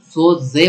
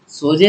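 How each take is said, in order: First: The middle consonant is a hissing z sound. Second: The middle consonant is a plain j sound. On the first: The speaker calls it right. "ज़ मतलब ये इसमें ज़ोर लगा रहा हूँ, सिटी लग रही है" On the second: The speaker calls it wrong. "सोज़े नहीं पढ़ते"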